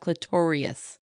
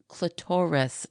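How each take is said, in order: First: The word ends '-rius', rhyming with notorious. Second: The word ends in a plain '-ris' sound. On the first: The speaker calls it wrong. "not clitorius" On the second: The speaker calls it right. "no, clitoris"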